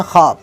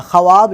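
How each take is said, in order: First: ख्वाब said as khab, silent w; ख्वाब with the vav dropped; correct pronunciation. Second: ख्वाब said as xa-wab, sounding the w; ख्वाब with the written w voiced; spelled-out pronunciation. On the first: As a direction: say ख्वाब as spoken, no w sound. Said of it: "लेकिन पढ़ा जाता है ख्वाब". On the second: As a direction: read ख्वाब letter by letter, vav sounded. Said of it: "ख्वाब लिखा आता है". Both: Shown as a demonstration.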